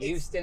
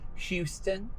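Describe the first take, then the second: First: The word starts without an H sound. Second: The word starts with an H sound.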